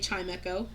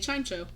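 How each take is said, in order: First: The name is said as chime plus echo. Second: The name is said as chime plus cho. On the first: The speaker calls it wrong. "I don't say Chimecho" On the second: The speaker calls it right. "I say Chimecho because Chime Cho Cho"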